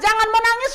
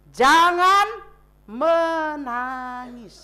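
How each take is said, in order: First: Said in the usual way. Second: Very slow, drawn-out comfort; tender comfort. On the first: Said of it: "Kenapa Tuhan Yesus berkata". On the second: Acted. Jesus comforts the widow. (lembut dan sangat pelan menghibur)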